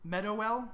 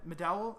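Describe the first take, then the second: First: Questioning "Medowell", split MED-oh-ELL with an audible O; Medowell as three syllables. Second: "Medowell" squeezed to muh-DAL, stress at the end; Medowell as two syllables. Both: Shown as a demonstration. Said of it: "I think it's Medowell".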